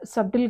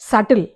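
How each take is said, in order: First: The b sound is pronounced in the word. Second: The b sound is left out of the word. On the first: The speaker calls it wrong. "అది సబ్టిల్ కాదు" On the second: The speaker calls it right.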